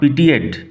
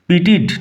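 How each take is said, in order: First: The ending has an added 'yed' glide sound. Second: The ending is a plain short 'eed' sound. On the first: The speaker calls it wrong. "Not পিটিয়েড" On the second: The speaker calls it right. "উচ্চারণ লক্ষ্য করো, পিটিড"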